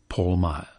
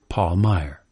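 First: The name is said in an English accent. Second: The name is said in a general American accent. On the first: "In England" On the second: "In America"

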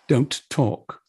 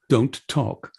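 First: Every consonant is pronounced crisply and separately. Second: The same.

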